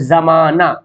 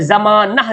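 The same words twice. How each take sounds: First: जमाना lower, ending open "-naa", no "h"; as spoken. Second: जमाना ending "-nah", with sounded "h"; as written. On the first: Teacher showing how it is read, जमाना as "za-maa-naa". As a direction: leave the "h" off जमाना. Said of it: "हम लोग क्या पढ़ते हैं". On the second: Teacher reading out the spelling, जमाना as "za-maa-nah". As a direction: end जमाना on an audible "h". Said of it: "कैसे लिखते हैं". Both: Shown as a demonstration.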